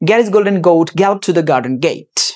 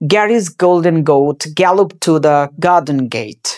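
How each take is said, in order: First: The sentence is spoken very fast. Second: The sentence is spoken slowly. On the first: "তারপরে আরো একটু fast" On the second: "প্রথমে একটু slowly practice করবা"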